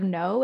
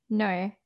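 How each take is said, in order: First: Said in the usual way. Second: Aussie "no", vowel bent toward "noy"; a one-word Australian accent on "no". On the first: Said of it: "they say no". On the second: Shown as a demonstration. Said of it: "how, um, they say no".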